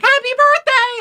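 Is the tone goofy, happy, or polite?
happy. It is said in a happy way.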